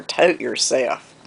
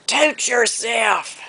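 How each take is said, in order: First: Said in the usual way. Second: Imitated high, long Southern holler; drawn-out holler. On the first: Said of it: "So she said". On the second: Grandmother running a dog out of the yard, hollering. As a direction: stretch it out high like calling across a yard. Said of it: "And she'd holler".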